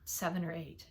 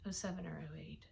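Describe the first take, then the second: First: Said in the usual way. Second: Whispered correction of "Oh seven or oh eight"; whispering. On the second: Real, not acted. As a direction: breathe "Oh seven or oh eight" as an unvoiced aside. Correcting year, whispered aside.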